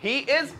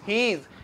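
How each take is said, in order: First: Said as two separate full words. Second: Said as one joined, contracted word. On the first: The speaker calls it wrong. "मगर मैं चाहता हूं आप ऐसे इस्तेमाल ना करें" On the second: The speaker calls it right. "ही इज को मिला के क्या बोलते हैं"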